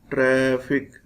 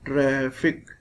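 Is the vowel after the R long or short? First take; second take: long; long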